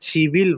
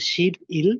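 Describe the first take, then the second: First: A b sound opens the second syllable, linked smoothly. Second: A p sound closes the first syllable, kept apart. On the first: It is the actual spoken form. "আমরা এটাকে সিভিল বলে" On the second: It follows the written syllables. "আমাদের পড়া অনুযায়ী এটা হচ্ছে শিপ ইল"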